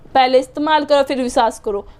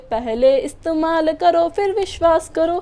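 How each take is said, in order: First: It is said in a harsh, commanding tone. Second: It is said in a polite, gentle tone.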